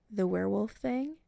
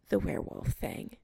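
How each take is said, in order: First: Werewolf thing asked with a rising end; rising question. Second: "The werewolf thing" whispered with a falling end; falling statement. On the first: Adam finishes the sentence, asking. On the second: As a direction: let "thing" fall as a quiet confirmation. Chris confirms, nodding. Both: Acted.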